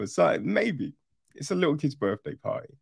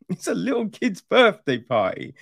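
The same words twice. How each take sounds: First: Said in the usual way. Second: Laughing disbelief. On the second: Real, not acted. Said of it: "is it though?".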